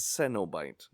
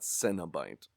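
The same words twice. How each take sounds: First: The first part sounds like 'ceno'. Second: The first part sounds like 'cinema'. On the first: The speaker calls it right. "It's Ceno" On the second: The speaker calls it wrong. "not like cinema"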